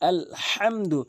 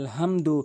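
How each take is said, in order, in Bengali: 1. h ধ্বনিটি জোরালো, গলা থেকে চাপ দিয়ে উচ্চারণ করা হয়। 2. h ধ্বনিটি হালকা ও সাধারণ, গলায় কোনো চাপ থাকে না। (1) "বড় হা হচ্ছে হলকের মাঝখান থেকে চাপ দিয়ে ভর দিয়ে শক্তি দিয়ে উচ্চারণ করতে হয়" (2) "অধিকাংশ লোক বলে আলহামদু, তাদের নামাজ নষ্ট হয়ে যায়"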